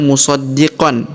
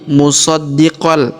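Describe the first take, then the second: First: The word ends with a clear n sound. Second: The word ends with an l sound. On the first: The speaker calls it wrong. "bukan dibaca musaddiqan" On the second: The speaker calls it right. "tapi musaddiqal"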